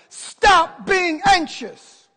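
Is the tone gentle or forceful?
forceful. It is said in a firm, commanding tone.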